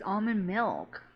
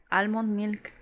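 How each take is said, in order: First: "almond" with a soft, open first vowel; "almond" opening on a long ah; almond, silent L. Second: "almond" with short a and clear L; "almond" with both syllables fully sounded. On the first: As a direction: say "almond" as AH-mund, slowly. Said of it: "I couldn't pronounce almond milk". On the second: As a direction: say "almond" as AL-mond. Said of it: "So I should just say almond". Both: Shown as a demonstration.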